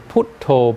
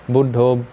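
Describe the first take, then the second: First: The word is said in a Thai-style pronunciation. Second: The word is said in a plain pronunciation.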